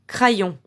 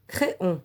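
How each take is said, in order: First: It sounds like kra-yon, with an a and y. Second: It sounds like cré-on, with no y sound. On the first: "le Y on fait comme si c'était L" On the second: "Si on prononce comme un I"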